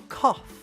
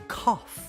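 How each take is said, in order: Both takes have the same delivery.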